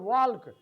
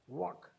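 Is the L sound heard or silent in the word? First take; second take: heard; silent. First: The L sound is pronounced in the word. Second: The L sound is left out of the word. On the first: The speaker calls it wrong. "it is not walk" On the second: The speaker calls it right. "L as the silent letter"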